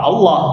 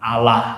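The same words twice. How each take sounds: First: Allah said with a full, heavy vowel as they say it; Allah voiced the way the other faith pronounces it; Allah as Christians say it. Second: Allah said with the contrasting vowel, short and plain; Allah given as the second, different form; Allah the other way. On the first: Teacher contrasts how Christians say Allah. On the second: Teacher gives the other pronunciation of Allah. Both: Shown as a demonstration. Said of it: "tapi ngomongnya apa?".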